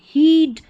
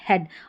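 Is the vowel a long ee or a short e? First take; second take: long ee; short e. First: The vowel is a long ee sound. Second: The vowel is a short e sound. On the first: The speaker calls it wrong. "ऐसे नहीं पढ़ेंगे" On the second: The speaker calls it right. "ए ए वाला sound आता है"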